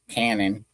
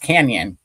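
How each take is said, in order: First: The middle has a plain 'n' sound, like cannon. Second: The middle has a 'ny' sound, like canyon. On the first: The speaker calls it wrong. "They don't call it cannon, do they?" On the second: The speaker calls it right. "it's pronounced canyon, right?"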